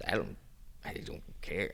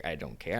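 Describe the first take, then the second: First: Breathy whisper, much softer, brushing it off; whispered shrug. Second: Voiced again but still much softer, rising at the end; soft repeat. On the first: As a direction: whisper it like it really doesn't matter. Says she doesn't care. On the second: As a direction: say it once more, quietly, not whispering. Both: Real, not acted.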